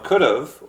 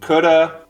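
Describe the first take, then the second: First: The word ends in a clear v sound. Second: The word ends in a short 'uh' sound.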